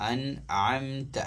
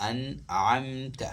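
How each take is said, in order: Both takes have the same delivery.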